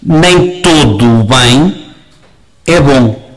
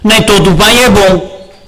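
First: The sentence is said very slowly. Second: The sentence is said at a normal pace.

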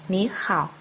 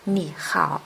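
First: The first syllable has a rising tone. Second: The first syllable has a low dipping tone. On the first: "đọc thành" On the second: "Khi hai thanh ba đi liền nhau"

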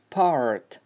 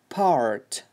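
First: The r after the vowel is clearly pronounced. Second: The same.

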